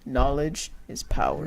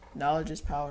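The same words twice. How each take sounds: First: It is said slowly. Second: It is said at normal speed.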